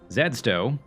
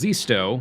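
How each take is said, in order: First: The name begins with a 'zed' sound. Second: The name begins with a 'zee' sound. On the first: This is the Canadian way to say it. "If you're from Canada, you can also use Zedsto" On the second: This is the standard way to say it. "The preferred pronunciation is Zisto"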